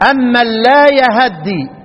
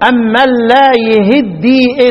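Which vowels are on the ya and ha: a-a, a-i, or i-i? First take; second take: a-a; i-i. First: Both the ya and the ha take an a vowel. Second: Both the ya and the ha take an i vowel. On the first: "الباقون بفتح الايه؟ الهاء والياء" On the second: "شعبة يقرأ بكسر الهاء الياء والهاء"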